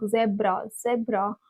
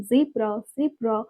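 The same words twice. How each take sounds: First: "zebra" as ZEB-ra; short e in "zebra"; childhood pronunciation. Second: "zebra" as ZEE-bra; long ee in "zebra"; American pronunciation. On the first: Speaker recalls what she always learned, childhood pronunciation. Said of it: "I always learned". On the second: Speaker repeats the word she was shocked to learn, American pronunciation. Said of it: "shocked to see this pronunciation". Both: Shown as a demonstration.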